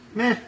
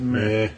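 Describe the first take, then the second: First: The pitch rises slightly at the end. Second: The pitch stays flat or falls at the end. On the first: A reaction slightly more positive than indifference. "it's like got a little uptick, at the end of it" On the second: A plain, unimpressed reaction. "Instead of meh"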